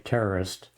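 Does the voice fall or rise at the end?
fall. It is said flat, without a questioning rise.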